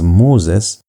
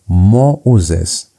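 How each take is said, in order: First: The two vowels blend into one sound. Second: The two vowels are pronounced as separate sounds. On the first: "you're supposed to pronounce it as Moses" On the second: "because of the diaeresis marks, you're going to pronounce it as Moses"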